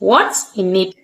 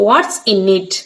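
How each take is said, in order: First: 'Is' is shortened and joined onto 'what'. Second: 'Is' is shortened and joined onto 'what'.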